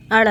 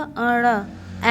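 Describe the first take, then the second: First: Said in the usual way. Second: अड़ stretched very long and slow; teacher stretching अड़ for the class; drawn-out sound. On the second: Shown as a demonstration. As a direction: hold the sound अड़ out slowly. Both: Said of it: "अड़ क्या होगा?".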